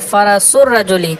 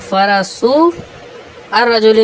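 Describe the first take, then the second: First: The vowel is shortened and linked into rajuli. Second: The long vowel is held before the article. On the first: The speaker calls it right. "बल्कि क्या कहेंगे फ़रसुर रजुली" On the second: The speaker calls it wrong. "फ़रसू और रजुली नहीं कहेंगे"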